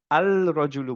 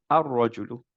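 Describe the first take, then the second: First: আল রজুলু with a full L before R; আল রজুলু, L clearly sounded; wrong al-rajulu. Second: আর রজুলু with the L merged into a doubled R; right ar-rajulu. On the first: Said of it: "আল রজুলু বলিনি". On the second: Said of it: "আমরা বললাম আর রজুলু". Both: Shown as a demonstration.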